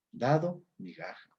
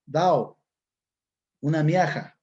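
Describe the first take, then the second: First: Said in the usual way. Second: "Dao" and "miaja" with the d and g left out; dropped consonants. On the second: Shown as a demonstration. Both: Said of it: "pérdida de consonantes".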